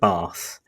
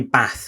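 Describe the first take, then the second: First: The vowel sounds southern English. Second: The vowel sounds northern English.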